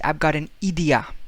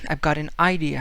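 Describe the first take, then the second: First: The 'I' sounds are said like 'ee'. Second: The 'I' sounds are said like 'eye'.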